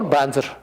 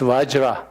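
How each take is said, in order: First: The word starts with a B sound. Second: The word starts with a V sound. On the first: This is how it was said for centuries in one tradition. The speaker calls it wrong. "the Tibetans, we say Om Banzar Sadho" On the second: This is how it is said at its source. The speaker calls it right. "it's not Banzar, it's Vajra"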